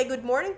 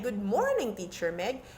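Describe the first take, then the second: First: Higher, bright good morning; excited greeting. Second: Said in the usual way. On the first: Shown as a demonstration. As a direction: greet the teacher with a lift. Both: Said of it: "when your voice goes higher".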